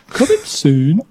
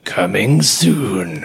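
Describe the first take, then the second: First: A broad Birmingham regional accent. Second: A deep, dramatic movie-trailer voice. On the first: "If I go for the full Birmingham accent" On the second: "doing the deep coming soon"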